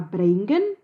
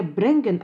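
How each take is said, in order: First: "брейнген" with ei in the first syllable; southern diphthong. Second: "бренген" with a single e vowel; northern e. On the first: Linguist cites southern Yiddish, "брейнген" with ei diphthong. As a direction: say "брейнген" gliding from e to i. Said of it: "в южном диалекте дифтонгизируется". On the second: Linguist cites northern Yiddish, "бренген" with plain e. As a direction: say "бренген" with a pure e. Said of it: "Часть северных «э»". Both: Shown as a demonstration.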